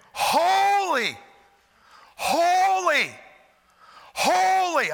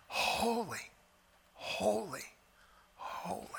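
First: High, loud, ringing out; loud proclaiming holy. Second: Softly, dying away to a breath; soft, fading holy. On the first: Preacher showing angels crying out loud. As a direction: cry each holy out full voice. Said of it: "Or it could have been". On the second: Preacher demonstrating a hushed angelic holy. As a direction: whisper it, trailing off. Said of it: "It could have been". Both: Shown as a demonstration.

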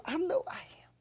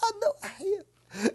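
First: Whispered, rising at the end. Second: Higher, voiced answer, falling at the end. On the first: Believer whispering a personal claim of strength. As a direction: breathe it to yourself, unvoiced. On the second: Believer claiming strength aloud after whispering. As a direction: say it aloud, firmly. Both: Real, not acted. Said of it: "You say you're strong".

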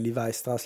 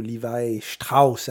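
First: Said in the usual way. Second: STRAUSS said the German way, as "Shtrauss"; German accent. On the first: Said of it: "la marque de jeans". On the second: Shown as a demonstration. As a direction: put a German accent on Levi Strauss, with a "sht" in Strauss. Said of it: "avec un accent allemand". (accent allemand)

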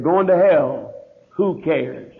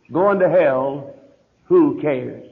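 First: Said in the usual way. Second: Slow it right down and let the title sink in; slow emphatic repeat. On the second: Shown as a demonstration. Pastor repeats his sermon title to the congregation, slow and weighty. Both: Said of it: "on the subject".

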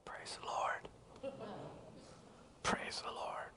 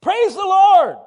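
First: Tiny whispered imitation of a timid woman; feeble, voiceless praise; barely a peep. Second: Much higher, louder demand; fierce high-pitched church command; insistent shout. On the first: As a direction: mouth it in a faint whisper. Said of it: "not even a peep". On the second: Retold or imitated. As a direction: holler it right at her. Preacher badgering frail woman to praise.

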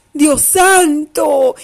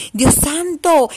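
First: Mock astonishment. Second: Said in the usual way. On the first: Storyteller gasps at wolf's fall.

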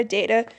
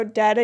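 First: "data" with the ay sound, like day; data with a long a. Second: "data" with an ah sound, like father; data with a broad a. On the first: Showing the DAY-tuh way to say "data" against the other. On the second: Showing the DAH-tuh way to say "data". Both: Shown as a demonstration.

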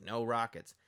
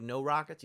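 First: Rockets falling as a statement; confirming. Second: Rockets raised as a question. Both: Retold or imitated. Retold question and its confirmation.

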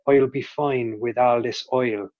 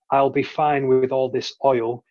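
First: Slow Southern Irish lilt on "fine" and "oil"; demonstrated Southern Irish key phrase; Southern Irish accent. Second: Said in the usual way. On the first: Shown as a demonstration. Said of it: "with Southern Irish". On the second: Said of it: "for example, with Southern Irish".

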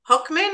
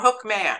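First: Hookman with a weak, swallowed "-min" ending; reduced second syllable. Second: Hookman with a clear, full "man" as second syllable; full "man" ending. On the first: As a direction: say Hookman like a surname, unstressed "mun" at the end. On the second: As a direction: say Hookman as two words, hook and man. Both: Shown as a demonstration. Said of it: "is it Hookman or Hookman".

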